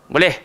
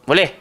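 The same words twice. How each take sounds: Both takes have the same delivery.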